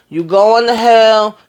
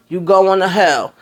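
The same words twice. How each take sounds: First: Louder, slow and drawn out, teasing; laughing reprimand to a friend who hid her sickness; mock scolding. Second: Said in the usual way. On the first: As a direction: call her out loud and slow, half joking.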